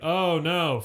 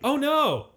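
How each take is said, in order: First: It sounds flippant and uncaring. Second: It sounds sincerely concerned and upset. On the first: The speaker does not care about the news. The speaker calls it wrong. "But you're like" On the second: The speaker seems to care about the news. The speaker calls it right. "You could be like"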